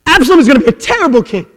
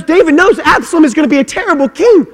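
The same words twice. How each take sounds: First: Loud and fast, driving it home; fast hammered repeat. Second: Much higher and louder, stretched out; emphatic shout. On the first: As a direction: rattle it off as a hard punch. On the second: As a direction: proclaim it as a crescendo. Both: Acted. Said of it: "repeated with different force".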